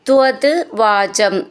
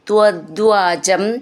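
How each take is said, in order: First: The two words are said separately. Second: The two words are run together as one.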